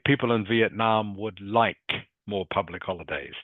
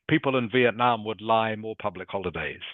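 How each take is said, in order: First: The final k sound of 'like' is clearly heard. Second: The final k sound of 'like' is dropped. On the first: The speaker calls it right. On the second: The speaker calls it wrong.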